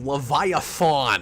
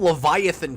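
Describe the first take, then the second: First: The ending sounds like the end of marathon. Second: The ending is said in the usual way. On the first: The speaker calls it wrong. "like a marathon, and it's embarrassing" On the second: The speaker calls it right. "He just said Leviathan correctly here"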